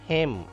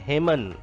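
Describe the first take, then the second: First: The final N sound is silent. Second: The final N sound is pronounced. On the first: The speaker calls it right. "N is silent" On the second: The speaker calls it wrong. "It is not hymen"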